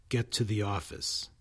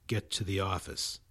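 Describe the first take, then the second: The two takes are said the same way.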